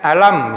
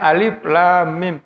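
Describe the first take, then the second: First: The letters are blended into one short word. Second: Each letter is said separately by its name. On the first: The speaker calls it wrong. "tidak membacanya alam misalnya" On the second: The speaker calls it right. "membacanya Alif Lam Mim"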